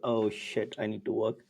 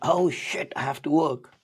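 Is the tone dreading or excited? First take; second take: dreading; excited. First: It sounds dreading and unhappy. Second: It sounds excited and eager.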